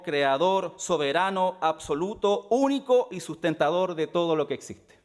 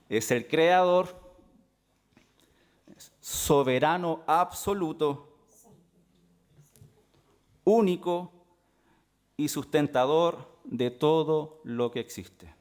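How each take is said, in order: First: The phrase is spoken at a normal pace. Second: The phrase is spoken more slowly and deliberately.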